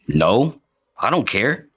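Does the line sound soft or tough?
tough. The line is said in a tough manner.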